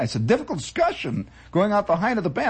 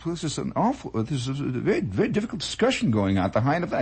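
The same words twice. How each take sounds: First: Said in the usual way. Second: Put-on lightly accented, quick Belgian phrasing; a hint of a Belgian ham, fast; faint Belgian accent. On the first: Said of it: "restates the Belgian's words". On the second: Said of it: "was a Belgian".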